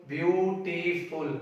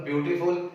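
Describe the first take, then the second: First: BEAUTIFUL very slowly in three beats, "beau - ti - ful"; split into syllables. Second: Said in the usual way. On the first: Shown as a demonstration. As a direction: stretch out "beautiful" one syllable at a time. ("beautiful" को धीरे-धीरे तीन हिस्सों में: ब्यू - टी - फुल) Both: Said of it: "this is the word with three syllables".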